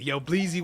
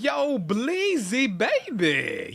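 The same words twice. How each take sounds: First: Said in the usual way. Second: Long, stretched, sing-song yo Bleezy; drawn-out greeting. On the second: Real, not acted. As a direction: call the name out slowly and high. Greeting a returning viewer.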